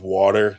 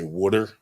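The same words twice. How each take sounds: First: Said in the usual way. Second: "wooder" with a short oo as in wood; local pronunciation. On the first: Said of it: "words they say down here that are weird". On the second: Shown as a demonstration. Man mimicking how locals say water, regional "wooder". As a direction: say "wooder", first vowel like wood. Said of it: "they say wooder".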